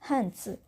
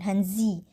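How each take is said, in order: First: The z is a hissing ts-like sound. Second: The z is a buzzing z sound. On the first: The speaker calls it right. "Z ini dibacanya seperti C S" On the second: The speaker calls it wrong. "Z ini bukan dibaca uh, hanzi ya, bukan hanzi"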